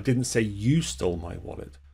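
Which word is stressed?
you. The stress falls on the word 'you'. Someone else stole it. "I said someone else stole it"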